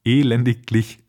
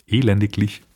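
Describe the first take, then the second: No difference in how they are said.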